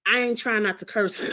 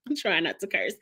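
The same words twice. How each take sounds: First: Said in the usual way. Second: Laughing through the line. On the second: Real, not acted. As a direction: giggle while correcting it.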